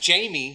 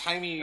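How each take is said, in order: First: The name sounds like JAY-mee. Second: The name sounds like HY-may. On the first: The speaker calls it wrong. "I read it in the book as Jamie" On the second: The speaker calls it right. "No, it's Jaime"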